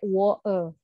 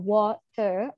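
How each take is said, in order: First: The t is replaced by a catch in the throat. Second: The t is pronounced as a clear t sound. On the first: "ataupun pakai woe" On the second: "kita bisa sampaikan sebagai water"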